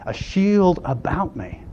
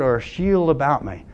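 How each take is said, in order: First: "shield about me" slowed right down for weight; slow, deliberate "shield about me"; emphatic repeat. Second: Said in the usual way. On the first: Retold or imitated. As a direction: dwell on "shield", letting "about me" follow slowly. Repeats psalm line for emphasis.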